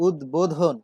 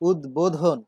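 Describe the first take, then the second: First: The 'b' sound after the 'd' is pronounced. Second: The same.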